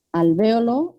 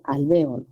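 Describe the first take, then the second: First: Alvéolo stressed on VE, rising at the end; stress on second syllable. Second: Alvéolo said as alveolo, stress moved to the O, falling; stress shifted later. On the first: Teacher offering an example of optional accenting, stress on VE in Alvéolo. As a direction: say Alvéolo with the beat on the ve, lifted. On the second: Teacher giving the other variant to compare, alvéolo stressed on the O. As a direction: drop lower and lean on the o of alvéolo. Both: Shown as a demonstration. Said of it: "No, no es así".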